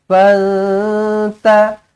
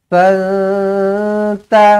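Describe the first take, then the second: The two takes are said the same way.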